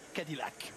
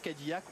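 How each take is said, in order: First: It is pronounced with an American accent. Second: It is pronounced with a French accent. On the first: "à l'américaine" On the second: "à la française"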